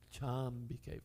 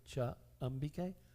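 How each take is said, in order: First: The two vowels merge into one long vowel. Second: The two vowels stay apart as separate words. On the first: The speaker calls it right. "flows much better" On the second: The speaker calls it wrong. "instead of for the meter"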